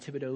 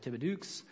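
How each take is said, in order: First: The name is said the local way. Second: The name is said as a spelling-based guess. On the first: The speaker calls it right. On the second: The speaker calls it wrong.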